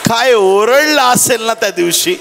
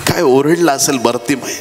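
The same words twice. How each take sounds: First: High-pitched preacher's exclamation; impassioned, raised-pitch wonder; fervent exclamation. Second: Said in the usual way. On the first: Real, not acted. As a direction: marvel aloud, voice pitched well up. Marvels, then repeats it quietly.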